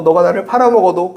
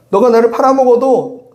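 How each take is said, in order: First: Said in the usual way. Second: 팔아먹어도 pushed higher and louder, falling at the end; raised, insistent preaching voice; emphatic repeat. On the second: Acted. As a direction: lean hard into 팔아먹어도 like a preacher pressing the point. Repeats Jesus' words, stronger.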